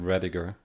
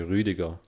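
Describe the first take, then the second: First: The name is said with an American pronunciation. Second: The name is said with a German pronunciation. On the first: "here in America you would pronounce it Rediger" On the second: "in Germany you would say Rüdiger"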